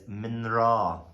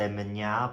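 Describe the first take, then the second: First: It is said with an R sound. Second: It is said without an R sound. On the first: The speaker calls it right. "but it's minra" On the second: The speaker calls it wrong. "I used to say minya"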